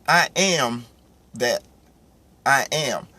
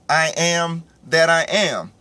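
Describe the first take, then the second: First: There is a pause after "that". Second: It is said without a pause after "that".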